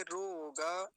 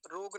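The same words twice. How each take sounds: First: रोग stretched as rooo-gaa; full final vowel. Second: रोग said short as rog; wrong clipped ending. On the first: Teacher correcting students, drawn-out full ending. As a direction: hold the o in रोग and release ga. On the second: Teacher rejecting the everyday form, short clipped ending. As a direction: stop रोग dead on the g. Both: Shown as a demonstration. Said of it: "रोग नहीं कहेंगे".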